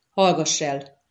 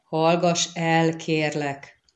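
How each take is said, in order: First: Said in the usual way. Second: Drawn-out plea for silence; slow, measured request. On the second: A narrator's reading. Geralt asks her again, with please.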